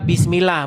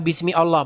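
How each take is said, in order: First: The words run together without the first vowel of Allah. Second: The words are separate, with Allah's first vowel kept. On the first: The speaker calls it right. "Dibaca bismillah" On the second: The speaker calls it wrong. "bukan bismi Allah"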